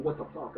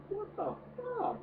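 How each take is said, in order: First: Said in the usual way. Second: Much higher, slow incredulous squeak; high squeak of disbelief. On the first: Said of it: "I'm gonna be saying". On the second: Retold or imitated. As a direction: squeal it out, utterly baffled. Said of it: "and I'm just like".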